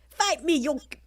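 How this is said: It is said in a mismatched character voice.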